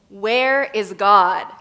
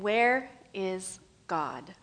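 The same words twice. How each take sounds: First: It is asked in a somewhat stern voice. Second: It is asked in a calm, plain voice.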